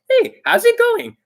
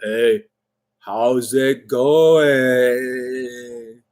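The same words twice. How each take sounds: First: The voice is high and screechy. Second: The voice is flat and monotone.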